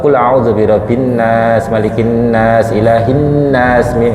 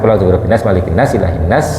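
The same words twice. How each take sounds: First: Each 'nas' is lengthened with a nasal hum. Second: Each 'nas' is rushed and clipped short. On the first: The speaker calls it right. "Jadi ennya itu tetap mendengung sedikit" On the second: The speaker calls it wrong. "Yang penting jangan"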